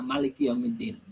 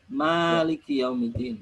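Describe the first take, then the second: First: The first vowel of Maliki is kept short. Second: The first vowel of Maliki is held long. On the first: "Maliknya pendek" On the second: "Malik itu kan harusnya ada alifnya ya"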